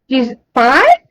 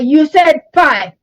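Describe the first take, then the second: First: It sounds unsure, like a question. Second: It sounds firm and matter of fact.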